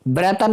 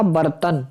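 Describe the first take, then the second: First: ब्रतन with r straight after b; wrong pronunciation. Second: बर्तन with r before t, bar-tan; corrected pronunciation. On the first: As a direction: say ब्रतन as bre-tan. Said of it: "नहीं ये होता". (ब्रतन में 'ब्र' बोलें) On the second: (बर्तन में 'बर' साफ़ बोलें) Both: Shown as a demonstration.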